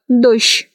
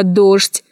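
First: Дождь said as дощ; old Moscow norm. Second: Дождь with ЖД heard as ШТЬ; spelling pronunciation. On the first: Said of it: "произносится как". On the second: Teacher naming the word дождь, pronounced as spelled. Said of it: "Что касается слова". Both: Shown as a demonstration.

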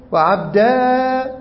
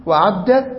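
First: عبدا slowly stretched on a high, held aa; long final alif. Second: عبدة cut to a short final a; short final fatha. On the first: Teacher listing variant forms, long aa on عبدا. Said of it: "وإثبات الألف". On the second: Teacher listing variant forms, short a on عبدة. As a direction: end عبدة on a brief a, no lengthening. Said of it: "حذف الياء وفتح الدال". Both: Shown as a demonstration.

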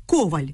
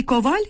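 First: Коваль with stress on the first syllable, КОваль; коваль stressed up front, the wrong surname way. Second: Коваль with stress on the last syllable, коВАЛЬ; коваль stressed at the end, as the common noun; correct noun stress. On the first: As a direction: say коваль as КО-валь, falling. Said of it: "Перетягувати наголос у прізвищі не можна". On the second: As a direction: say коваль as ко-ВАЛЬ, rising. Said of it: "загальна назва". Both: Shown as a demonstration.

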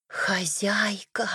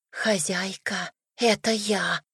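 First: Slow ghostly whisper; eerie whisper. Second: Eerie whisper. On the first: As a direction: breathe it like a ghost from the grave. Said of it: "Раздался загробный шёпот". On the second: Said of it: "Почему ты так жутко шепчешь". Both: A narrator's reading.

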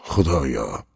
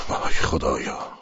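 First: Said in the usual way. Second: Slow anguished whisper. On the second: Acted. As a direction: let «خدایا» fall slowly in a breathless moan. («وای خدایا» را آهسته و نجواوار با درد بگو) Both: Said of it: "گفت".

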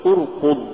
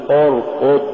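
First: ارقض with a pure rounded u vowel; light damma. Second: ارقض with the u wrongly thickened towards o; heavy damma error. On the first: Tajweed teacher giving the form to say, light damma. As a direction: keep the u in ارقض light and clean. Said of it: "قل". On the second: Tajweed teacher showing what not to say, heavy damma. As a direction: darken the u in ارقض to an o. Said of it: "ولا تقل". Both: Shown as a demonstration.

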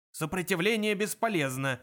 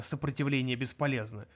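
First: Higher-pitched guard's mock roar; emphatic drilled bark. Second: Said in the usual way. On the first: A narrator's reading. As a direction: bellow the slogan, somewhat restrained. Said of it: "взревел охранник". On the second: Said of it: "крики охранника".

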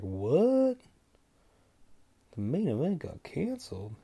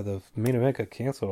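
First: High rising "what", then softer disbelief; stunned, drawn-out question back; incredulous. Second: Said in the usual way. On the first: Retold or imitated. Fan hearing from his buddy that the fight is off, incredulous. Shocked reaction to buddy's news.

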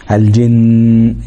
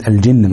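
First: Final ن of الجن held as a long, steady nasal hum; held ghunna. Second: Said in the usual way. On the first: Shown as a demonstration. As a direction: stop on الجن with its doubled ن drawn out through the nose. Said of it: "يبقى في الغنة موجودة". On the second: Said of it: "وقفت على كلمة الجن مثلًا".

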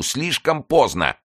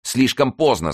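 First: High, drawn-out cry of despair; slower despairing cry. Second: High, loud cry of despair. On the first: Mazarin despairs again, high slow cry. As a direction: stretch the despair out slowly. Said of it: "хватаясь за голову". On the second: Mazarin despairs as gates give way, high cry. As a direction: clutch your head and cry out. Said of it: "сказал Мазарини, хватаясь за голову". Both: A narrator's reading.

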